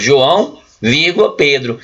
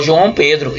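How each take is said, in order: First: "João" rising, then "vírgula", then "Pedro" falling, each set apart; comma separation. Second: "João Pedro" run together as one name; no comma pause. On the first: Teacher showing two people with a comma, separated names. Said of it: "como eu coloquei uma vírgula, são duas pessoas". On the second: Teacher reading the name without a comma, joined as one person. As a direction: join "João Pedro" without any break. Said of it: "vai ficar o nome de uma pessoa só". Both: Shown as a demonstration.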